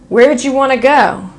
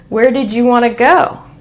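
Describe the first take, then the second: First: Did shrinks to a d sound linked to you. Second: The word did is said as a full syllable. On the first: "this D next to this Y ... this turns into" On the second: "so we say"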